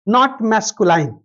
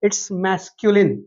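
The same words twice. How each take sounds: First: Masculine said with -line ending, marked as wrong; slow masculine ending in -line as the wrong form; wrong pronunciation. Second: Masculine said with short -lin ending; slow masculine ending in -lin, not -line; right way to say it. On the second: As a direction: spell out the end of masculine as -lin. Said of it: "ध्यान रखिएगा". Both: Shown as a demonstration.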